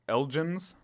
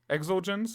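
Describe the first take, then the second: First: The word begins with no X sound. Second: The word begins with an "eks" sound. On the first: "Without it is" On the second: "I don't know if you're supposed to pronounce the X in this or not. If so, it's Exulgens"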